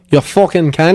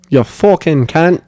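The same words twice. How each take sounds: First: Put-on Australian accent. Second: Put-on slow Australian accent. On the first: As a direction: throw the insult like a mock Aussie bloke. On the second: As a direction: stretch the insult slowly, mock Aussie style. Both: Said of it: "How do you say it in Australian accent?".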